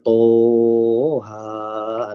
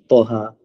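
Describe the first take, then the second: First: The vowel is drawn out long. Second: The vowel is kept short. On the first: The speaker calls it wrong. "Jangan dia baca toha. Tu panjang kan" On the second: The speaker calls it right. "Toha tu tak ada kening"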